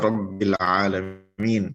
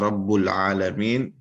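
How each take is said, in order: First: The word Rabb ends in an 'i' vowel. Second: The word Rabb ends in a 'u' vowel. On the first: The speaker calls it right. "Kenapa dibaca Rabbil alamin?" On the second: The speaker calls it wrong. "kenapa tidak dibaca Rabbul alamin?"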